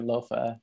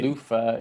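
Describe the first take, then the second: First: The first vowel is an oh sound. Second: The first vowel is an oo sound. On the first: This is the common reading from the spelling. "I'm happy for everyone to just say Lothar" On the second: This is the intended Danish-inspired pronunciation. "the O is U"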